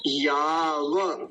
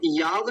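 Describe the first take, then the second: First: "याव" very slow, ending in an open va; full va. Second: "याव" closed on v, no final vowel; wrong half va. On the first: Teacher models the correct va, very slow and open. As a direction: stretch "याव" as yaa-va, two full syllables. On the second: Teacher shows the common mistake, half va. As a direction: cut "याव" short as yaav, one syllable. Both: Shown as a demonstration. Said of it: "व को आधा बोल देते हैं".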